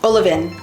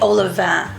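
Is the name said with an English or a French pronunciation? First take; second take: English; French. First: The name is said with a plain English pronunciation. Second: The name is said with a French pronunciation. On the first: The speaker calls it wrong. "It could just be Olivin, but that doesn't sound right" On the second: The speaker calls it right. "sounds much more Parisian, much more elegant"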